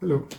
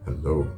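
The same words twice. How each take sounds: First: It is said in a plain, ordinary way. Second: It is said in a seductive, sultry way.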